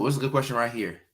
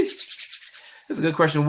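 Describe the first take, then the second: First: Said in the usual way. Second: Said slowly and higher, stretching "good"; a slow, higher, drawn-out "good question". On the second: Real, not acted.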